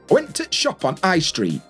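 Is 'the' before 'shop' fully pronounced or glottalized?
glottalized. The word 'the' is reduced to a glottal stop.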